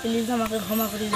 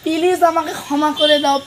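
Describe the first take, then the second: First: It is said flatly, without acting. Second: It is said with acted, emotional pleading.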